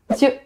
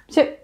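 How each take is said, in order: First: A sound in the middle is dropped. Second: A sound in the middle is dropped.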